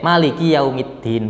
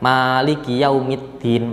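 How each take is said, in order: First: The first vowel of Maliki is kept short. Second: The first vowel of Maliki is held long. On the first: "memnya itu boleh dibaca pendek" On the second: "boleh dibaca panjang"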